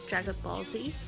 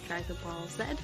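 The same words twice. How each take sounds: First: The letter Z is said the American way. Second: The letter Z is said a non-American way. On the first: "I said Dragon Ball Z, ... We have an American audience" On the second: "not Dragon Ball Z"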